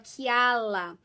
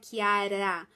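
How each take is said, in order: First: The middle consonant is an L sound. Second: The middle consonant is an R sound. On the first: This is how the child said it. The speaker calls it wrong. "ele falava Kiala ... Ele não conseguia fazer o R" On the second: This is the intended pronunciation. The speaker calls it right. "não falava Kiara"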